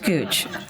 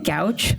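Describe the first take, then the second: First: The vowel sounds like 'oo' in pooch. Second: The vowel sounds like 'ow' in couch. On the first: The speaker calls it right. "but it's Gooch" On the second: The speaker calls it wrong. "I want to say Gouch"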